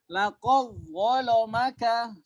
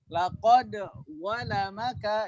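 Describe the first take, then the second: First: The d sound merges directly into the dh. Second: The d sound is pronounced clearly before dh. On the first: This is another traditional reading of the text. "Kalau riwayat Warus laqad laqad langsung ke dha" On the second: This is one traditional reading of the text. "itu riwayat Haus ya"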